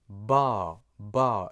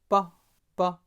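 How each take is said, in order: First: The vowel is long. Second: The vowel is short. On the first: "with the long vowel ah, you would pronounce it ba ba. It's pronounced long" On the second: "with a short vowel ah, you would pronounce it"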